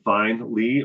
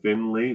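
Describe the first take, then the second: First: The first syllable sounds like 'fine'. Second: The first syllable sounds like 'fin'. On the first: This is how other people get the name wrong. The speaker calls it wrong. "F I N, fine, Lee" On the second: This is how the family says the name. The speaker calls it right. "or Finley, very different"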